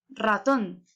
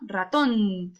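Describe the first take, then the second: First: The stress is on the first syllable. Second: The stress is on the last syllable. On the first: The speaker calls it wrong. "estuviera ubicada en la A, ¿cómo quedaría?" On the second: The speaker calls it right. "¿en dónde va?"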